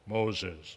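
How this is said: It is said in a deep, booming voice. "the deep voice"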